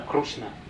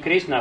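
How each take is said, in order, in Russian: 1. Гласный после Р звучит как 'oo'. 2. Гласный после Р звучит как 'ee'. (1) "Это особое произношение" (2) "И не Кришна"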